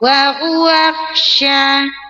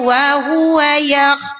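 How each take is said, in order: First: The final ya sound is hidden and indistinct. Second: The final ya sound is pronounced clearly. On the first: The speaker calls it wrong. "Kena khofa" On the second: The speaker calls it right.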